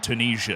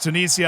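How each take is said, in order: First: The word has an American pronunciation. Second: The word has a non-American pronunciation. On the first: The speaker calls it wrong. "my American accent makes Tunisia very annoying to say because I just desperately... want to scream Tunisia" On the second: The speaker calls it right. "But I know it's Tunisia"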